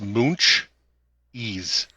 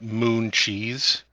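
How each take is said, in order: First: The ch sound ends the first syllable. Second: The ch sound begins the second syllable. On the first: The speaker calls it right. "It's moonch ease" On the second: The speaker calls it wrong. "it's not moon cheese"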